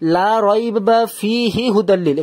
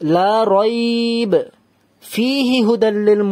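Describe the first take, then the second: First: It runs on with no pause anywhere. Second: It pauses only after rayb. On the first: The speaker calls it wrong. "এখানেও থামছি না, এখানেও থামছি না, তাহলে এটা ভুল" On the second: The speaker calls it right. "রাইব এখানে থামলাম, ... এখানে তাহলে থামলাম না"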